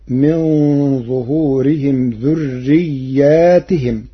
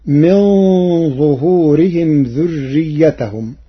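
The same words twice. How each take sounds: First: ذرياتهم as dhurriyyātihim, long ā and kasra on ta; ذرياتهم plural with stretched ā; Warsh reading. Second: ذريتهم as dhurriyyatahum, singular; ذريتهم with no alif after the ya; Hafs reading. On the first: Teacher reciting Warsh's variant, slowly. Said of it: "فتصير". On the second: Teacher quoting the standard reading, recited. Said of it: "قرأ ورش كلمة ذريتهم". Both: Shown as a demonstration.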